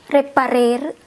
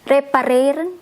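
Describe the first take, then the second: First: The final n sound is left off. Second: The final n sound is clearly pronounced.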